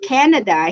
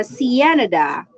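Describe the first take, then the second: First: Said in the usual way. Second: Canada mocked as Cienada; mispronounced Canada. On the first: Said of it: "So just like Canada". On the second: Imitating a TikTok man's mispronunciation. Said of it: "he pronounced Canada Cienada".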